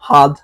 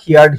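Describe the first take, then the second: First: The vowel is a short central 'er' sound. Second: The vowel is an 'ee' sound like 'hear'. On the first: The speaker calls it right. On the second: The speaker calls it wrong.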